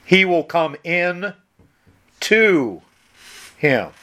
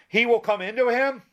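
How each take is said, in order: First: "in" and "to" split by long pauses, "to" louder; slow, separated reading. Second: "into" said as one word, higher questioning pitch; into run together. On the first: Shown as a demonstration. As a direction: read it slowly, stopping before "to" and before "him". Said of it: "Read it slow". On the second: Retold or imitated. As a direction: ask it unbroken, "into him" flowing together. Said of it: "and he said, Well, doesn't it say".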